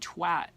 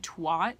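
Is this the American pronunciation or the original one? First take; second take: original; American. First: The word is said the original non-American way. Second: The word is said the usual American way. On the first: The speaker calls it right. "It's actually twat" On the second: The speaker calls it wrong. "Americans pronounce this word wrong. We always say twat"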